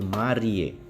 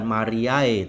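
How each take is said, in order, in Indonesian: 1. Akhirannya satu vokal e. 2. Akhirannya dua vokal, a lalu e. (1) "A E dibaca E ... tapi Mariae" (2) "bukan Mariae"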